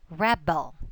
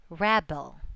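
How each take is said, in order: First: The stress is on the first syllable. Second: The same.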